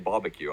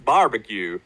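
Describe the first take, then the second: First: It is said in a British accent. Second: It is said in a Texan accent. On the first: "Because I say barbecue, obviously" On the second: "I tried so hard to do the Texas... Texas barbecue"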